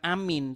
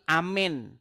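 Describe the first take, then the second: First: The second vowel sounds like 'ee'. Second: The second vowel sounds like 'eh'. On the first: The speaker calls it wrong. "bukan amin" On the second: The speaker calls it right. "tapi amen"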